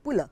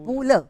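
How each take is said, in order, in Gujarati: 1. તે એક ટૂંકા અક્ષરમાં બોલાય છે. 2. તે બે અલગ અક્ષરમાં બોલાય છે. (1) "નહીં" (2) "પુરુષોત્તમ લક્ષ્મણ"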